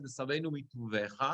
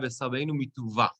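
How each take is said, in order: First: "מטובך" ending in -VE-cha, mituvecha; first version's ending. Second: "מטובה" ending in a stressed -VA, mituva; second version's ending. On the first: Teacher comparing two editions, "מטובך" said mituvecha. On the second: Teacher comparing two editions, "מטובה" said mituva. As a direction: end "מטובה" on an open VA, no -cha. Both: Shown as a demonstration. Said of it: "two different versions".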